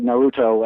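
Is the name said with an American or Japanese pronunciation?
American. The name is said with an American pronunciation. The speaker calls it wrong. "you're thinking in your head"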